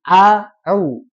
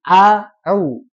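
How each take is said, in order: First: A glottal catch, then a pressed throaty sound. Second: A glottal catch, then a pressed throaty sound.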